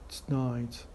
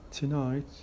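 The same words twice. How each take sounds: First: The weak vowel after the t is dropped. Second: The weak vowel after the t is pronounced.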